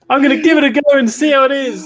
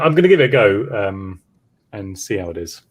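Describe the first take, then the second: First: It is said brightly, with enthusiasm. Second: It is said flatly, without enthusiasm. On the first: The speaker is keen to try the game. The speaker calls it right. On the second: The speaker is unsure about the game. The speaker calls it wrong.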